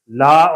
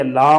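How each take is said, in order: First: Said in the usual way. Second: لا with the aa in the nose; nasalized vowel. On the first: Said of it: "غنے کی آواز کا ہونا اور نہ ہونا". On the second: Shown as a demonstration. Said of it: "غنے کی آواز کا ہونا".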